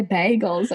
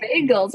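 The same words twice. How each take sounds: First: "bagels" with a short "a", as in "bag": BAG-els; "bagels" in her Jersey way, short "a" as in "bag"; her own odd bagels. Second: "bagels" with a long "bay" vowel, BAY-gels; "bagels" spoken as bay-gels, the standard sound; bagels the usual way. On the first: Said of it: "I say bagels". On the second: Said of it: "See, I don't say bagels". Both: Shown as a demonstration.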